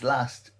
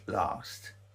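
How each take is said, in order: First: It is said in a northern English accent. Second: It is said in a southern English accent.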